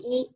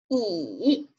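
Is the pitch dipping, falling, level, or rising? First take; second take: level; dipping. First: The pitch stays high and level. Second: The pitch dips low then rises. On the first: "它读在一声的时候，它读一啊" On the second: "三声读乙"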